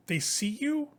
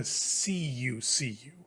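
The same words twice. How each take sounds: First: "see you" rising high at the end; lifted "see you". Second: Slow "SEE you", then dropped "see you"; stress on "see". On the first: Narrator on unfocused eyes, "see you" lifted questioningly. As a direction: leave "you" hanging up high. Contrasts seeing with really seeing. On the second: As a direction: lean on the first "see", let the repeat fall. Repeats for really seeing. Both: A narrator's reading.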